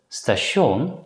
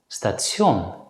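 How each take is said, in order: First: The 'ti' sounds like a plain 'sh'. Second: The 'ti' sounds like 'tsh' with a t. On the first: "it's usually pronounced as schon" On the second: "some native Dutch speakers pronounce it as tjon"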